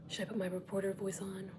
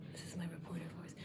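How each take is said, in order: First: Said in the usual way. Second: Polished news anchor delivery; reporter voice. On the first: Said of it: "This is not my reporter voice". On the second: Shown as a demonstration. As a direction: read it like a TV reporter.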